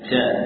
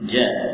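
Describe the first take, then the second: First: The consonant is made near the tongue tip. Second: The consonant is made mid-tongue. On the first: The speaker calls it wrong. "mungkin mendekati bagian ujung lidah. Ja, ini juga mengalah yang kurang tepat" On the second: The speaker calls it right.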